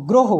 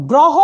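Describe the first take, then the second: First: গ্রহ as "groho"; closed "o" after gr in গ্রহ; correct spoken vowel. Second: গ্রহ as "grawho"; as-written vowel. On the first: Teacher models pronunciation, গ্রহ with closed "o". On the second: Teacher reads the spelling, গ্রহ with open "aw". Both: Shown as a demonstration. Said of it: "কেন গ্রহ হবে".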